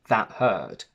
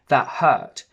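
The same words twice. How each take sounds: First: The vowel has light, relaxed pressure. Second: The vowel has strong, emotional pressure. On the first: "I wouldn't say" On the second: "it helps convey a little bit more emotion and emphasis"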